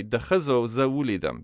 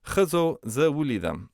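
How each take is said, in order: First: "The khazo za wulidam" with a wrong leading The; learner's mistake, adding The before khazo; "The khazo" said as an error; wrong form with the. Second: Said in the usual way. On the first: Shown as a demonstration. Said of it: "I do not say". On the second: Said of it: "notice here, I do not say".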